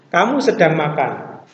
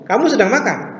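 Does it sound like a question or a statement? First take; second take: statement; question. First: It is said as a statement, falling at the end. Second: It is said as a question, rising at the end. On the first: It states a fact. "Yang satu menyatakan" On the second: It asks something. "yang satu menanyakan"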